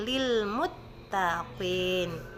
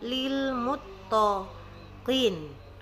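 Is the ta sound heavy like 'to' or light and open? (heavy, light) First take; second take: light; heavy. First: The ta sounds light, with the mouth open. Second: The ta sounds heavy and rounded, like to. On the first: The speaker calls it right. "tidak dibaca mutto tapi lil muttaqin" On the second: The speaker calls it wrong. "ada yang membacanya menjadi lil muttaqin ... terpengaruh menjadi suara to"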